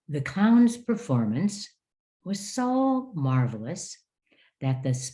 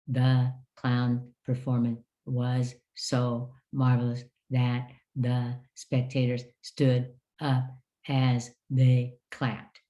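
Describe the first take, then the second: First: It is read at moderate pace with natural phrasing. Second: It is read flatly, without natural phrasing.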